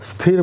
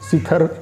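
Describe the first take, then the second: First: The s and th join with no vowel. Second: A vowel is inserted between the s and th. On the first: The speaker calls it right. "स्थिर बोलते हैं" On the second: The speaker calls it wrong. "सी थोड़ा सा बोल दिए और थर बोल दिए"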